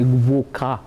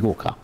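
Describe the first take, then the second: First: A w sound follows the g. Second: No w sound follows the g. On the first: The speaker calls it right. "I'm supposed to say Gwoka" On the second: The speaker calls it wrong. "I don't pronounce it very well. I say Goka"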